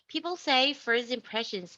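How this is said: It is spoken with an American accent. "like an American, pure American accent"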